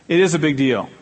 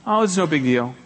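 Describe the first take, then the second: First: "is" firmly stressed, falling. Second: Breezy, brushing the apology aside; dismissive wave-off. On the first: Preacher corrects the wave-off, firm stress on "is". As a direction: insist on "is" in "It is a big deal". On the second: Preacher mimics someone shrugging off an apology, mildly breezy. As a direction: shrug it off lightly. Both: Shown as a demonstration. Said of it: "Don't say".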